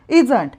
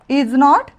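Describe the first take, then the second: First: The words merge into one contracted word. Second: Two full words are said separately.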